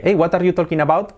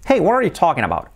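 First: Higher Spanish-accented English, "talking" as "TOL-kin"; every word sounded out with Spanish vowels; Spanish learner's careful question. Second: Higher native-style English, words run together; "what are you" blurred into one, English vowels; native English accent. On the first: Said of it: "yo antes pronunciaba así". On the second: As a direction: imitate a fluent native's linked English. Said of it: "Cambia muchísimo". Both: Shown as a demonstration.

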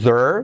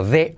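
First: "there" as a swallowed "thur"; wrong vowelless "there". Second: "there" as "theh-er", E clear before R; forced E. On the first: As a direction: mispronounce "there" with no E before R. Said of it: "No es there". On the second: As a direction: push the E in "there" ahead of the R. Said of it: "Forzamos la E delante de la R". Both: Shown as a demonstration.

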